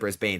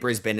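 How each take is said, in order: First: The final syllable is full, like 'bane'. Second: The final syllable is short and reduced. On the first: The speaker calls it wrong. "instead of Brisbane" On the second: The speaker calls it right. "and Brisbane"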